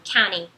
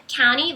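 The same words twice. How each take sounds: First: County said as kani, only an N; county with the T fully dropped; American county, T silent; no T sound. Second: County said with no T, like kany; American county, T silent; no T sound. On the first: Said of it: "fosse só um N". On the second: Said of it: "você não vai pronunciar o T". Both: Shown as a demonstration.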